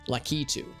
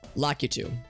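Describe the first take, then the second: First: The stress falls on the middle syllable. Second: The stress falls on the last syllable. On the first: This is how the game says the name. "emphasis on the key and not the two" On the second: This is how the speaker said it growing up. "growing up, I always I always said Lakitu"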